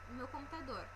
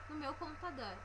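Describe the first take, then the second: Both takes have the same delivery.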